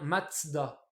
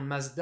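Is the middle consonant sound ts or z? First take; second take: ts; z. First: The middle consonant is a ts sound. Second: The middle consonant is a plain z sound. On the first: This is the German reading of the spelling. "en allemand, ça se prononce bien Mazda" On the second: This is how French speakers say it. "on la prononce bien Mazda avec le Z"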